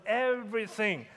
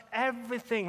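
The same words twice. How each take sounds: First: "everything" said with deliberate emphasis. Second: Said in the usual way. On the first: Real, not acted. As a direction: stress the word "everything". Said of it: "Let me emphasize the word everything". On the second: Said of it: "let me emphasize the word everything".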